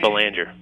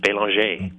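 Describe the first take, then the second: First: The name is said with American pronunciation. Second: The name is said with French pronunciation. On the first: This is the Americanized version the owner of the name uses. "but I've been going with" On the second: This is how the name is said in France or Canada. "In France or Canada, that's how you pronounce it"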